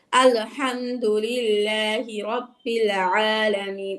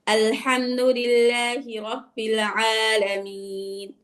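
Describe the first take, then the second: First: আলহামদুলিল্লাহি রাব্বিল আলামিন with jolts added, slow; wrong push. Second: আলহামদুলিল্লাহি রাব্বিল আলামিন said smoothly, slow, no jolts; natural recitation. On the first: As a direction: demo the wrong pushing recitation, slowly. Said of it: "এরকম ধাক্কা বা আলো". (ধাক্কা দিয়ে ভুল তেলাওয়াত) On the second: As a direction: recite it plainly and slowly. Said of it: "স্বাভাবিক বলতে হবে". (স্বাভাবিক ধীর তেলাওয়াত) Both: Shown as a demonstration.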